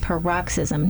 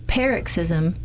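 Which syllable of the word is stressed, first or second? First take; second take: second; first. First: The stress is on the second syllable. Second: The stress is on the first syllable. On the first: "the second way you pronounce it, you stress the second syllable word" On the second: "the first um, way to pronounce it, you stress the first syllable of the word"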